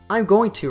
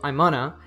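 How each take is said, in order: First: Every word is fully pronounced, with no reduction. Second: The phrase is reduced to 'I'mana'. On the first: "I'm going to reduces to I'm gonna" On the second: "On the first level, it reduces to I'mana"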